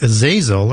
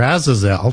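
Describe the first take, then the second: First: Azazel said uh-ZAY-zel; first pronunciation. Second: Azazel said AZ-uh-zel; alternative pronunciation. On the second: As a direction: open Azazel on a short A, as AZ-uh-zel. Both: Shown as a demonstration. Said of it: "depending on how you want to pronounce that".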